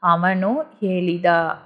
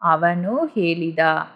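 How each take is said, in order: The two takes are said the same way.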